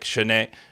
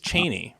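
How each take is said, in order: First: The name is pronounced in an unusual, odd way. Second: The name is pronounced the ordinary, expected way. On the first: This is how locals say the name. "I hear people say it really weird, like" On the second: This is how the name reads on the page. "It's Cheney, right? Am I reading it wrong?"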